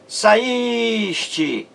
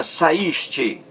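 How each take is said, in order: First: Saíste with a long, high held í; stress on the i. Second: Said in the usual way. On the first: Shown as a demonstration. Teacher showing the sílaba mais forte, saíste with drawn-out stressed í. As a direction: stretch the í of saíste, then a short te. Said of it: "é a sílaba mais forte". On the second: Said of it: "veja aí".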